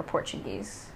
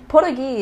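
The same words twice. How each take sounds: First: Said in the usual way. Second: 'Portuguese' said POR-da-gee, no final z; pidgin pronunciation. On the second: Shown as a demonstration. Explaining pidgin to listeners, 'Portuguese' as POR-da-gee. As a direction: clip the end off 'Portuguese', ending on gee. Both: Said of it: "Portuguese is pidgin for Portuguese".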